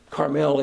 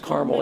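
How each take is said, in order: First: It is said the way Californians say it. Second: It is said the way Catholics say it. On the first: It refers to the place in California. "It's Carmel if you're in California" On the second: It refers to the Carmelite religious order.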